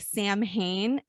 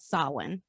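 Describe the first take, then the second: First: The word is read out the way it's spelled. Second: The word is said in its Gaelic pronunciation. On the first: The speaker calls it wrong. "spelled as like Sam Hain" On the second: The speaker calls it right. "it's actually called Samhain"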